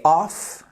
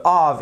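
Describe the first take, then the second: First: "off" ending in a crisp f sound; off, voiceless ending. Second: "of" ending in a buzzing v sound; of, voiced ending. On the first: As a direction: say "off" with a hissed final f for contrast. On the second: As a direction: say "of" as "ov" for contrast. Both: Shown as a demonstration. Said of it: "la différence entre of et off".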